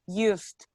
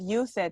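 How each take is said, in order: First: The word ends with a T sound. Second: The word ends with a D sound. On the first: The speaker calls it right. "It's like a T at the end" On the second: The speaker calls it wrong. "is not used"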